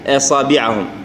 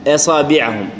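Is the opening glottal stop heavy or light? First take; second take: light; light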